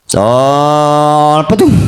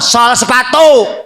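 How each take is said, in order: First: The phrase is clipped in a street vendor's call. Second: The phrase is said fully and distinctly. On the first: It is hard to tell what is being offered. The speaker calls it wrong. "gaya orang kos tukang sol sepatu" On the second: It is easy to tell what is being offered. The speaker calls it right. "jelas cik urang"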